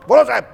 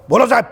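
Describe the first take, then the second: First: High, loud confident reply; a tall man sounding off to his boss; booming peon. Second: Higher, louder bold servant's reply; booming peon. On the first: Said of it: "height બોડીવાળો માણસ". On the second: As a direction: answer your boss from the top of your voice. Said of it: "tone જ પહેલે મારે". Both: Retold or imitated.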